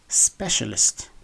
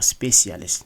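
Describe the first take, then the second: First: The middle consonant sounds like 'sh'. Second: The middle consonant does not sound like 'sh'. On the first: The speaker calls it right. "the C is pronounced as a sh" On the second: The speaker calls it wrong. "instead of"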